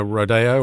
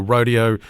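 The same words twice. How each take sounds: First: "rodeo" said as ro-DAY-oh; Spanish-style "rodeo", ro-DAY-oh; alternative pronunciation. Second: Said in the usual way. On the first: Shown as a demonstration. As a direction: say "rodeo" with a stressed DAY in the middle. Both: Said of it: "rodeo or rodeo".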